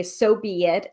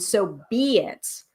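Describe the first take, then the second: First: Said in the usual way. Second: "So be it" slow, each word given weight; weighty emphasis. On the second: Shown as a demonstration. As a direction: lean into "So be it" slowly, like sealing a spell. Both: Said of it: "notice the difference in feeling when you say".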